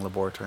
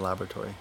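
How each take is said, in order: First: The word is pronounced the British way. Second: The word is pronounced a non-British way. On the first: "I've been saying laboratory" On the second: "instead of laboratory"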